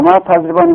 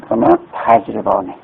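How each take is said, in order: First: Emphatic repeat. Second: Said in the usual way. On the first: Shown as a demonstration. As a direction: restate و ما تضریبانی high and clear for the class. Teacher repeats the form emphatically.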